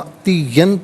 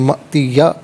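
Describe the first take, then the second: First: The word ends with an n sound. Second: The word ends with a long a vowel. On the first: The reading continues without stopping. "यहाँ पर मअतियन पढ़ेंगे" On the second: The reader stops on this word. "वक़्फ़ की सूरत में मअतिया पढ़ा जाएगा"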